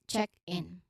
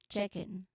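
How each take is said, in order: First: The two words are said as separate sounds. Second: The two words run together like one word. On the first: "separate sounds" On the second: "Sounds like a animal chicken"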